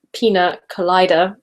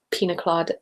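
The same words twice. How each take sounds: First: "Colada" said as "co-LIE-da", like collider; "Colada" turned into "collider", clearly and louder; punning pronunciation. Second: Said in the usual way. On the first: Shown as a demonstration. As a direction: sound out "Colada" with a long "eye" in the middle. Re-reads the punning derby name.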